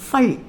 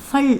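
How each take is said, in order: The two takes are said the same way.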